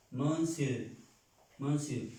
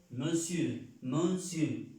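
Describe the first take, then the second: No difference in how they are said.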